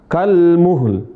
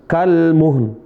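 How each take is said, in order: The two takes are said the same way.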